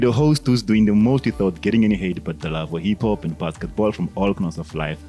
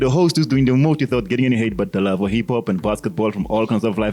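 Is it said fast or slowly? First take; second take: slowly; fast. First: It is said slowly. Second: It is said fast.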